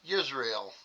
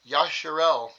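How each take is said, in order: First: The name is said as Yisrael. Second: The name is said as Yasharel. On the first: The speaker calls it wrong. "so I've been just saying Yisrael" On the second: The speaker calls it right. "Yasharel is the proper way of saying Yisrael"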